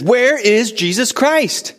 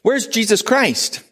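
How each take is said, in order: First: High, loud, slow repeated question; shouting the question again, thinking he was misunderstood; yelled louder. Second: High, slow, earnest question; a foreign visitor's sincere, high-pitched question to the guide; asking Mohammed's question. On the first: Retold or imitated. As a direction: call it out so the whole room hears. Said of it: "so he yells it even louder". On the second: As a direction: ask it openly, wondering aloud. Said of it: "and he says".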